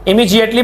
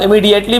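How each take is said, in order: First: The middle consonant sounds like J. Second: The middle consonant sounds like D. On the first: "जी की sound देनी है" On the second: "डी वाले डी भी पढ़ते हैं"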